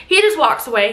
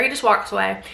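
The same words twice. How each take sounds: First: "just" punched louder; emphatic repeat. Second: Said in the usual way. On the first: Shown as a demonstration. Storyteller stressing the husband's coldness, "just" louder. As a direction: hit "just" harder on the repeat.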